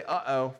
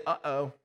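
First: Uh-oh from the back seat. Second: A mild, worried uh-oh; a hint of dread in the uh-oh; gloom and doom uh-oh. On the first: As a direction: sound like a kid about to be sick. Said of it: "You hear somebody say". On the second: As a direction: say it like something just went wrong. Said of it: "a gloom and doom greeting". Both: Shown as a demonstration.

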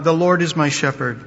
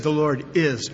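First: Said in the usual way. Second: "is" leaned on firmly, falling to a close; emphatic stress on is. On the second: Shown as a demonstration. Preacher to congregation, quoting David, with emphatic "is". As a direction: press down on the word "is" like a settled fact.

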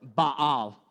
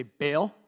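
First: Baal drawn out as "bah-AHL", falling; Baal with broad ah. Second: Baal said "bale", rising at the end; Baal as one syllable. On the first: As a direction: give Baal a long, open "ah". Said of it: "whatever one you like best". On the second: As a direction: offer Baal like "bale" for repeating. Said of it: "Let me hear you say". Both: Shown as a demonstration.

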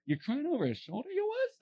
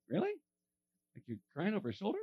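First: High-pitched, exaggerated incredulous question; mock disbelief. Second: Quizzical, disbelieving question with rising end; quick and quieter, doubting what he hears; incredulous inner thought. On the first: Pastor imagines blurting his doubt to her, mock incredulous. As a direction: pretend to say the rude thought aloud, voice climbing high. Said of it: "Can you imagine I said it?". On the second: Retold or imitated. Pastor privately doubts a woman crying over a shoulder, incredulous. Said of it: "The first thing I thought was".

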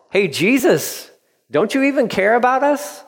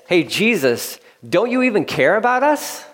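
First: Pleading prayer. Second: High, pleading cry to Jesus; pleading disciples. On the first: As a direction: cry out to Jesus, voice climbing high. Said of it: "a prayer that's being prayed". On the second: Frightened disciples plead with sleeping Jesus, high and pleading. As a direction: beg him to care, pitch rising up. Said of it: "Another way to say that is". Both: Retold or imitated.

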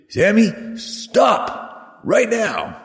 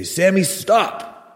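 First: High, drawn-out escalating command; insistent parent calling. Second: Firm command, pitch jumping up on stop; parent calling out. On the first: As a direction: call after a child who ignores you, stretching each word. Parent repeats order as child ignores. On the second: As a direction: call after a child running off. Parent calling to runaway child. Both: Retold or imitated.

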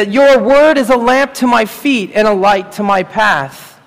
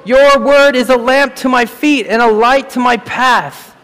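First: Said in the usual way. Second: Ringing, slowed proclamation of scripture; proclaimed verse. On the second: Shown as a demonstration. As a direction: declare the verse like a preacher. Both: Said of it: "As the psalmist wrote".

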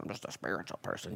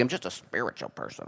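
First: Faded mock spiritual type, much softer, lower, almost breathed. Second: Soft mock spiritual type. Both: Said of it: "there's just spirituality".

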